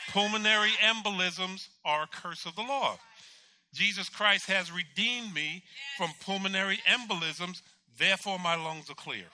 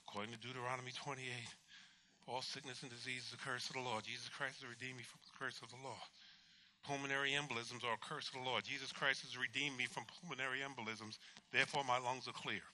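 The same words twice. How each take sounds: First: Loud, raised preaching proclamation; forceful declaration. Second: Low, soft, monotone recital; sleep-talking recitation. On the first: God giving the patient words to confess, forceful declaration. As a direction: declare it with full conviction. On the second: Patient reciting scripture in his sleep, low murmured recitation. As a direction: murmur it as if asleep. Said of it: "I was talking in my sleep". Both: Retold or imitated.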